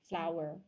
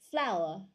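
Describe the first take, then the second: First: It is said with an American accent. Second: It is said with a British accent. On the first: "American English will say flour" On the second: "British English will say flour"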